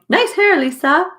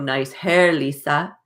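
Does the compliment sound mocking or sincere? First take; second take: sincere; mocking. First: The compliment is said in a sincere tone. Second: The compliment is said in a mocking tone. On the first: The compliment is genuinely meant. "She was saying" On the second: The compliment is meant as ridicule. "I was hearing, "Oh"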